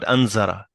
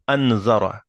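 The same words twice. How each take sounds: First: The middle consonant is a buzzing z sound. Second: The middle consonant is a soft 'th' sound. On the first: The speaker calls it wrong. "not anzara" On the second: The speaker calls it right.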